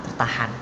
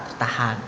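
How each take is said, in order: The two takes are said the same way.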